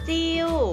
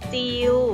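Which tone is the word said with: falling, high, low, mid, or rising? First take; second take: falling; mid. First: The word is said with a falling tone. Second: The word is said with a level mid tone. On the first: "เติมไม้โทลงไปจะเป็นจิว" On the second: "เริ่มจากจิว"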